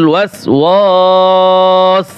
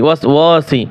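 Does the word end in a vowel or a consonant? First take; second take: consonant; vowel. First: The word ends on the s consonant. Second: The word ends with a short i vowel. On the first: The reciter stops on this word. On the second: The reciter continues without stopping.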